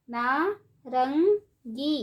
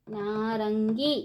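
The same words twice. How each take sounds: First: नारंगी stretched slowly, syllable by syllable; slow syllable drill. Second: Said in the usual way. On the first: Shown as a demonstration. Teacher drawing out नारंगी slowly for children. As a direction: draw out नारंगी for the class. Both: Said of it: "ऊंची आवाज़ में कैसे पढ़ेंगे".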